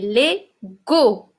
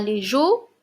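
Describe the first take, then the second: First: The last syllable has a hard g sound. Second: The last syllable has a soft j sound. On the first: The speaker calls it right. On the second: The speaker calls it wrong. "on ne dit pas"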